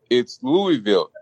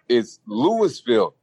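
First: The first part sounds like 'Louie', without an s. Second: The first part sounds like 'Lewis', with an s. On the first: The speaker calls it right. "it's Louisville, like King Louis, the city was named after" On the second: The speaker calls it wrong. "it's Louis, like St. Louis"

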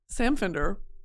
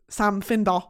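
First: The name is said in a plain accent. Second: The name is said in a Newcastle accent.

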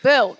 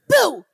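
First: It is said in a flat tone. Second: It is said in an excited tone.

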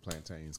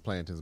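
First: The word is said in a rural, country way. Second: The word is said in the standard way. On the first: The speaker calls it wrong. "I say plantains because I'm country" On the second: The speaker calls it right. "the correct pronunciation is plantains"

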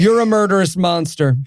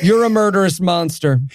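First: It is said in a flat, casual, offhand tone. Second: The same.

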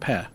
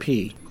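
First: The syllable ends with an 'eh' vowel. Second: The syllable ends with an 'ee' vowel. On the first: The speaker calls it right. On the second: The speaker calls it wrong. "Not P"

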